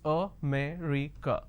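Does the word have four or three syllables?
four. All four syllables are pronounced clearly. The speaker calls it right. "the correct pronunciation is... So there are four syllables"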